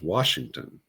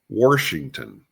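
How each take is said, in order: First: It is said with a standard accent. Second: It is said with an East Tennessee accent.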